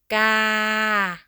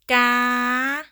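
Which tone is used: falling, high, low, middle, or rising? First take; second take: middle; high. First: The pitch stays level in the middle. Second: The pitch stays high. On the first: "Ga is a middle tone" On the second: "High tone"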